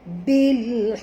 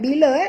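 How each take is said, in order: First: The word ends sharply on the 'l'. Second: An extra 'a' vowel follows the 'l'. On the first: The speaker calls it right. "tapi bil" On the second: The speaker calls it wrong. "bukan bila eh"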